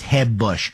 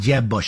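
First: The J is a soft Spanish-like H sound. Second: The J is a hard English J sound.

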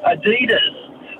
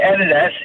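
First: It is said the New South Wales way. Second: It is said the Victorian way.

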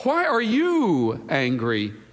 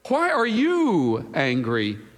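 First: The stress is on the word you. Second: The same.

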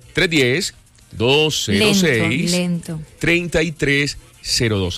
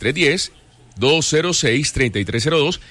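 First: The number is said slowly. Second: The number is said at normal speed.

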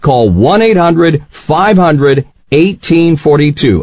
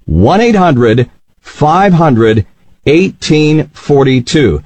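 First: The number is said at normal speed. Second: The number is said slowly.

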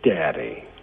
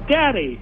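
First: It is said slower in a lower voice. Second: It is said in a raised, higher voice.

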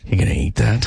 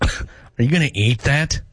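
First: It is said flirtatiously with heavy breathing. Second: It is said in a sarcastic tone.

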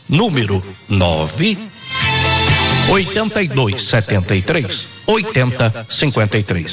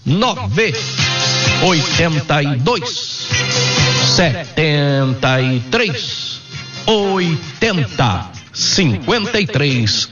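First: The number is read at normal speed. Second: The number is read slowly.

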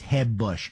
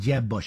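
First: Jeb starts with a soft Spanish-style J. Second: Jeb starts with a hard English J.

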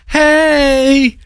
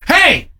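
First: It is said mildly, without anger. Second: It is said angrily and sharply.

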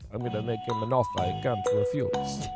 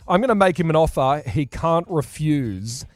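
First: It is said in a put-on Godfather voice. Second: It is said in his normal voice.

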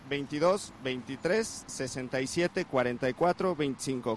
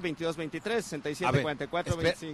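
First: The number is said slowly. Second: The number is said fast.

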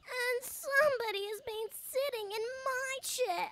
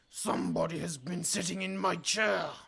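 First: It is a small, squeaky, sorrowful wail. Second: It is a big, deep, growly voice.

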